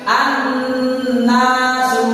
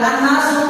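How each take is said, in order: First: The nasal n sound is held for longer. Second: The nasal n sound is short, not held. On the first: The speaker calls it right. "tetapi ditahan" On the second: The speaker calls it wrong. "Ini membacanya tidak an-nasu"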